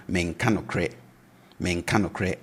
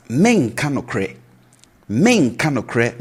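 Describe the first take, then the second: First: Menka nokre kept low and soft. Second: Menka nokre begun higher and louder; raised tone menka. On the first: Teacher contrasting present negative with future, low. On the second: Teacher showing the future negative with raised start. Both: Shown as a demonstration. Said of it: "So the tone is down".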